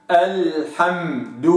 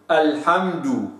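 First: الحمد slowly, m given full length; held m. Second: الحمد with the m rushed away; slipped m. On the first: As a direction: let the m in الحمد sit. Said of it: "وتأخذ حقها من التوسط". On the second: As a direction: say الحمد skipping over the m. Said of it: "راحت الميم وانزلقت". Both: Shown as a demonstration.

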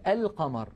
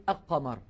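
First: القمر said al-qamar, with clear l; pronounced lam. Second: القمر said aq-qamar, l dropped; assimilated lam. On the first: Teacher showing the moon lam, القمر as al-qamar. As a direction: sound the article's l in القمر. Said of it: "فاللام مظهرة". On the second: Teacher showing the error, القمر as aq-qamar. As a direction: double the q in القمر, no l. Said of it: "ولا نقول". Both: Shown as a demonstration.

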